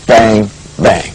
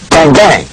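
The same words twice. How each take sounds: First: The two words are spaced slowly apart. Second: The two words come in a quick, even rhythm. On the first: The speaker calls it wrong. "not a very slow bang" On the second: The speaker calls it right. "it happens with this kind of a feel"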